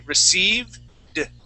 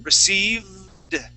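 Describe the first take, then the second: First: A pause splits the word before the D. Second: The V is held long without a break. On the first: "we're going to split the word up" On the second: "hold on to that V for just a little bit longer"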